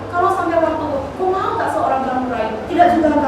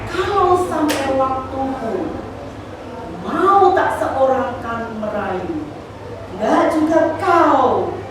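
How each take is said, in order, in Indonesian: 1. Dibaca cepat, dengan sedikit jeda. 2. Dibaca pelan, dengan jeda di antara baris.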